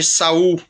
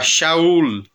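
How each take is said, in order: First: The name begins with a plain s sound. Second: The name begins with a sh sound. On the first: This is the usual local form of the name. "Nós chamamos de Saul" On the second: This is the original form of the name. "a mesma pronúncia com som de X"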